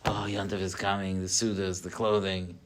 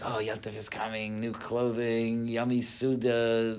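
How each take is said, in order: First: It sounds weary and burdened. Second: It sounds excited and happy.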